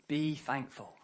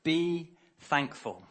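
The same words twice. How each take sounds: First: "Be thankful" repeated softer, falling; soft echo. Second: "be thankful" slow, BE leaned on; slow emphatic. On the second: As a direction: stretch out "be thankful" with weight. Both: Shown as a demonstration.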